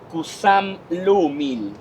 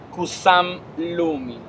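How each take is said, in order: No difference in how they are said.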